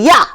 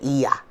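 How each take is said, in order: First: The name is said fast as one syllable. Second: The name is said slowly with two syllables. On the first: "you pronounce it fast, it sounds like Yah" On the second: "you pronounce it Iya"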